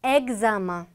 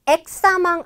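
First: Examen with a voiced "gz", as "eg-za-man"; correct French pronunciation. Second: Examen with a hard "ks" instead of "gz"; wrong pronunciation. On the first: Teacher modelling for learners, correct French pronunciation. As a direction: buzz the x in Examen as "gz". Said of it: "발음 난다는 거 꼭 주의해". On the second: Teacher warning learners off a mistake, wrong pronunciation. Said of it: "아닙니다". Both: Shown as a demonstration.

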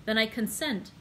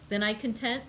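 First: "consent" said properly with an S, kon-SENT; corrected word. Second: "content" said as kon-TENT instead of consent; misread word. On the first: Reading Beauchamp's reply, correcting to "consent" plainly. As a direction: fix the slip, say "consent" clearly. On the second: Reading Beauchamp's reply, saying "content" by mistake. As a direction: slip into "content" with a T sound. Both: Real, not acted. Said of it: "uh, sorry".

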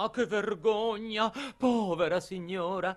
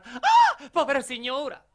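First: High-pitched theatrical pleading; acted maid's high lament; imploring maid. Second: Very high cry, then pleading; hammed-up maid crying out at peak pitch; imploring maid's outcry. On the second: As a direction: burst out in a piercingly high, loud plea.

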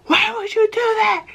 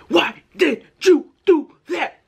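First: High, shrill-pitched imitated scolding mom; angry mom. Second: High, slow, every syllable hit apart. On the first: Mom scolding her son while whipping him, high mock voice. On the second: Retold or imitated. Mom scolding her son, each syllable hit slow and high. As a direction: punch each syllable like blows. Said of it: "every time she said a syllable".

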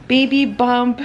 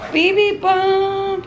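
First: Said in the usual way. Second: Sung playfully, high and slow. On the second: Real, not acted. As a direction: sing it out like a little tune. Sings the words playfully.

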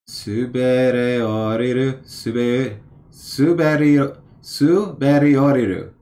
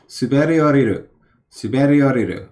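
First: Slow, syllable by syllable suberi-; sounding it out slowly. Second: Suberi oriru said fast and smooth; quick fluent read. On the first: Reading a flashcard aloud, sounding it out slowly. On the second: Reading the flashcard back, fast and fluent. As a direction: rattle off Suberi oriru in one breath. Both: Shown as a demonstration. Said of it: "sounding it out".

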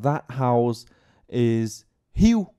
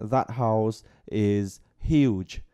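First: "huge" with no final dzh sound, slow and drawn out; mispronounced huge. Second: "huge" said slowly with a full final dzh sound; clear final dzh. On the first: Teacher imitating a student mispronouncing huge. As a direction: say "huge" as hiu, ending cut off. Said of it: "bảo là ngôi nhà kia". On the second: Teacher modelling huge said correctly. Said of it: "phát âm chuẩn như vậy". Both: Shown as a demonstration.

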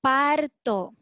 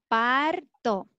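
Both takes have the same delivery.

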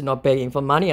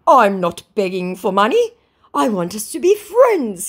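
First: Said in the usual way. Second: High, loud mock plea; hammed-up wounded protest; protesting scammer. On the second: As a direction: plead in a pitched-up scammer voice.

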